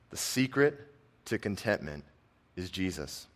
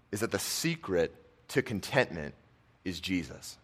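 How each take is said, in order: First: Secret lifted, then falling soft to Jesus; slow, hushed restatement with pauses. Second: Said in the usual way. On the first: Shown as a demonstration. Pastor repeating the key line quietly to the congregation, hushed. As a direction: pause before each phrase and let it drop.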